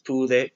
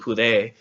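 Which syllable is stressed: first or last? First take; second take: first; last. First: The stress is on the first syllable. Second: The stress is on the last syllable. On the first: The speaker calls it right. "It's pude" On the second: The speaker calls it wrong. "isn't pude because it doesn't have an accent mark"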